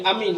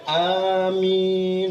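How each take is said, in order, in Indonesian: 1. Kedua vokal tetap pendek. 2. Kedua vokal diucapkan panjang. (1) "hana panjang A, hana panjang min" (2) "Bupanjang a bupanjang min"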